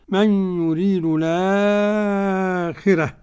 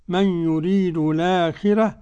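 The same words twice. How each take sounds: First: The vowel after the hamza is held long. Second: The vowel after the hamza is held short. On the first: "ومد" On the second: "قصر"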